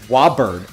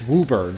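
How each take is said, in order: First: The name is said with an outsider's pronunciation. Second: The name is said with the local pronunciation. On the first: The speaker calls it wrong. "I always said Woburn" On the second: The speaker calls it right. "It's Woburn"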